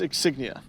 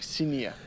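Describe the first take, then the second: First: The G in the word is sounded. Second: The G in the word is silent.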